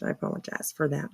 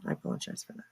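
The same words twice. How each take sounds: First: Said in the usual way. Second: Hushed, breathy whisper. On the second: Shown as a demonstration. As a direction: whisper the apology under your breath. Repeats apology, then whispers it.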